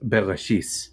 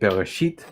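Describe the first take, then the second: First: The word ends with an s sound. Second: The word ends with a hard t sound. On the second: This is the modern Hebrew pronunciation. "In modern Hebrew, you would say"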